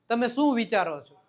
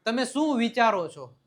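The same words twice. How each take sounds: The two takes are said the same way.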